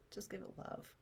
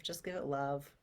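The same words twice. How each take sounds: First: Breathy whisper of comfort; soft whispered repeat. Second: Said in the usual way. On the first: Shown as a demonstration. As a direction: breathe it out softly. Repeated soothing phrase.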